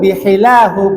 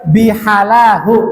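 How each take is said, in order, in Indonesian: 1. Vokal setelah b itu i. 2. Vokal setelah b itu a. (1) "bihilahu boleh" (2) "bihalahu nggak boleh"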